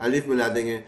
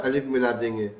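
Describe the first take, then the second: Both takes have the same delivery.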